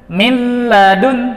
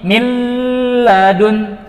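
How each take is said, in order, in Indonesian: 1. Bunyi yang digabung lewat tanpa dengung hidung yang ditahan. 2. Bunyi yang digabung ditahan dengan dengung hidung. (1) "tanpa ditahan" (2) "Ini contoh yang salah"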